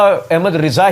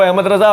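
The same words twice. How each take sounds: First: رضا with a short i in the first syllable, "Riza"; slow, deliberate Ahmad رضا as "Ahmad Ri-za"; the Riza reading. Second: رضا with a short a in the first syllable, "Raza"; the Raza reading. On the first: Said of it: "میں نے وہاں بھی توجہ دلائی". (رضا کو زیر کے ساتھ "رِضا" پڑھیں) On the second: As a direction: say Ahmad رضا as "Ahmad Ra-za". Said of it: "Ahmad رضا ہی ہوگا". (رضا کو زبر کے ساتھ "رَضا" پڑھیں) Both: Shown as a demonstration.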